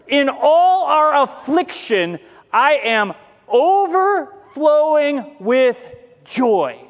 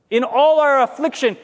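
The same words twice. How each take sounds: First: Slow, stretched reading of the verse; slow scripture reading. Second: "all" pressed as the line is echoed; repeated for emphasis. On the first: Acted. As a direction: draw out every word of the scripture. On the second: Shown as a demonstration. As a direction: hit "all" as you repeat it. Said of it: "repeats the phrase, stressing all".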